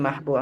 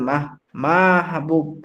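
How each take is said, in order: First: The first vowel is short and plain. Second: The first vowel is drawn out long. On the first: The speaker calls it right. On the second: The speaker calls it wrong.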